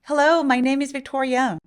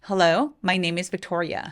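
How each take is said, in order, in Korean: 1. 목소리가 높은 음입니다. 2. 목소리가 낮고 편안합니다. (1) "이 목소리 톤으로 Hello, my name is Victoria 라고 하면 이런 느낌이 듭니다" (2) "톤을 좀 편안하게 낮춰서"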